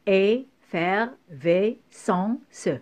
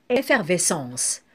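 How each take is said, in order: First: "effervescence" very slowly, each syllable set apart by a pause; teacher's slow syllable-splitting of "effervescence". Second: Said in the usual way. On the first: Shown as a demonstration. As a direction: cut EFFERVESCENCE into separate syllables. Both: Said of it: "couper le mot par syllabe".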